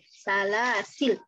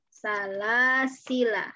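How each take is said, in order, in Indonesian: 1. Kata ini berakhir dengan konsonan l. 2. Kata ini berakhir dengan vokal pendek. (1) "huruf lamnya jadi sukun" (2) "La-nya pendek ketika wasol"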